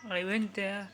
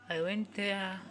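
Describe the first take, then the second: No difference in how they are said.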